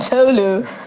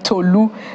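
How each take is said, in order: First: The name is said with an American pronunciation. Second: The name is said with a Nigerian pronunciation. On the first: The speaker calls it wrong. "not Tolu, as it's called in the US" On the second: The speaker calls it right. "you can still call your name Tolu"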